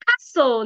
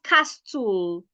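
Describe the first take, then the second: First: The t is silent. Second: A t sound is pronounced. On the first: The speaker calls it right. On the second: The speaker calls it wrong.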